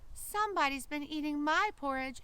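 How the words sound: It is said in a small, high, shrill voice. A tiny creature is speaking. "in his shrill little voice"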